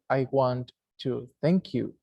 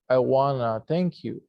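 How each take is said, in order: First: 'Want to' is said as two full words. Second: 'Want to' is reduced to 'wanna'. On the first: The speaker calls it wrong. "people don't say" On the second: The speaker calls it right. "They say"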